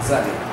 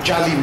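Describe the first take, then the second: First: It starts with an emphatic Arabic z sound. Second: It starts with a plain Bengali j sound. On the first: The speaker calls it right. "কারণ সেটা হচ্ছে দোয়া দিয়ে" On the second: The speaker calls it wrong. "জালিম নয়"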